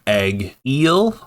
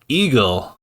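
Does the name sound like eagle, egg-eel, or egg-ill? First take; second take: egg-eel; eagle. First: It starts like egg and ends with eel. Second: It sounds just like the word eagle. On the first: "another pronounced his name Egg-eel, like uh, the fish" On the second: "now we have Dixon calling him Eagle"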